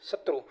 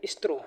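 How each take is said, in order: First: शत्रु said short and soft with a clear sh sound; शत्रु as the proper form; correct shatru. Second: स्त्रु said with a stra- sound, the wrong way; स्त्रु with the wrong opening sound; mispronounced shatru. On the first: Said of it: "अरे स्त्रु". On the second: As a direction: say स्त्रु as the teacher's example of the error. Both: Shown as a demonstration.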